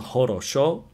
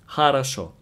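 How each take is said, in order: First: All three vowels sound like O. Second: The first two vowels sound like A. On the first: "So it's written хорошо" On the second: "but pronounced хорошо"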